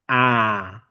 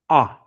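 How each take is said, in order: First: The vowel is long with the mouth wide open. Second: The vowel is short with the tongue pushed down. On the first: "the long A ... you open up" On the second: "it can also be short ... I push my tongue down"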